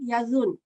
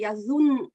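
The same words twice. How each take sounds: First: "yazun" with a light, single n; light final n. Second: "yazun" with a held, doubled final n; stressed double n. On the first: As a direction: land gently on the n of "yazun", without stressing it. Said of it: "if there was no shadda here". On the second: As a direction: press on the last n of "yazun" so both are heard. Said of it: "We have to stress it a little". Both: Shown as a demonstration.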